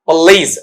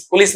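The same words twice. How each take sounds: First: पुलिस as "p'lees", long ee; corrected pronunciation. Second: पुलिस as "pu-lis", short vowels; Hindi mispronunciation. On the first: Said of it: "ऐसा आएगा।". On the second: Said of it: "पुलिस नहीं पुलिस". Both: Shown as a demonstration.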